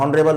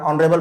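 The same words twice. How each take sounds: First: ऑनरेबल said wrongly with an h sound, like हॉनरेबल; ऑनरेबल with the h wrongly pronounced at the start; wrong voiced h. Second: ऑनरेबल said with no h sound, starting on ऑ; ऑनरेबल, h silent, opens straight on the vowel. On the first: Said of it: "ऑनरेबल नहीं पढ़ते हैं". (ऑनरेबल ग़लत तरीके से, ह बोलकर) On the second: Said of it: "ऑनरेबल पढ़ रहे हैं". (ऑनरेबल बिना ह की आवाज़ के) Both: Shown as a demonstration.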